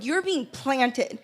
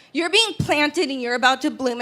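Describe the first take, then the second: First: "You're being planted" said very slowly and much softer, each word weighted; a quiet slow line meant to sink in; slow soft emphasis. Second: Said in the usual way. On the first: Acted. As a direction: let "being planted" land, slow and hushed. Speaker's key message line.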